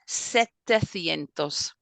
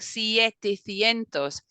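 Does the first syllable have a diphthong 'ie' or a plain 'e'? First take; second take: plain; diphthong. First: The first syllable has a plain 'e'. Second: The first syllable has the diphthong 'ie'. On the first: The speaker calls it right. "you miss out the E" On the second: The speaker calls it wrong. "it doesn't roll off the tongue"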